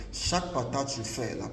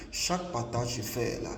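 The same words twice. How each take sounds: The two takes are said the same way.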